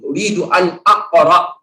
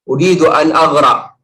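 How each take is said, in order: First: The q is pronounced as a hard q. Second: The q is pronounced as a gargled gh. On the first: It says 'I want to read'. The speaker calls it right. "padahal saya ingin baca aqra" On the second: It sounds like saying 'I want to drown'. The speaker calls it wrong. "Qafnya dibalikan jadi ghain"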